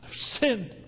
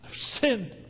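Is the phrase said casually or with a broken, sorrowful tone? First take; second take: sorrowful; sorrowful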